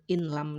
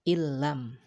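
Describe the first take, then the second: First: The n is pronounced separately before the l. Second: The n merges into a doubled l sound. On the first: The speaker calls it wrong. "bukan in lam lagi" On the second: The speaker calls it right. "akan tetapi bacanya adalah illam"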